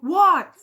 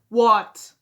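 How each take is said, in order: First: It is said in an angry voice. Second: It is said in a calm voice.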